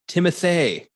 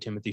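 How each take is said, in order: First: The first name rhymes with the surname. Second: The first name does not rhyme with the surname. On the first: The speaker calls it right. "the apparent correct correct pronunciation" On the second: The speaker calls it wrong. "We've apparently been mispronouncing"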